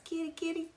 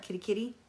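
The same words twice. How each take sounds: First: High, soft sing-song kitty call; sweet high call to her cats. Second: Said in the usual way. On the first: Shown as a demonstration. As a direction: coax the cats in a high little voice. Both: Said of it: "That's what I always say to my cats".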